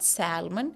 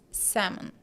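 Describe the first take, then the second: First: The L sound is pronounced in the word. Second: The L sound is silent in the word. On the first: The speaker calls it wrong. "not salmon" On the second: The speaker calls it right. "the L is not given stress"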